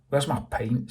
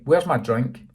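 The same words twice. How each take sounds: First: Said in the usual way. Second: "Where's my drink?" louder, rising at the end; louder repeat. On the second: Acted. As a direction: push "Where's" harder. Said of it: "repeated Joey".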